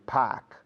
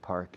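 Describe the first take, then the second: First: It is said in a Boston accent. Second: It is said in a general American accent. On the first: "In Boston" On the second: "Normal American and Canadians"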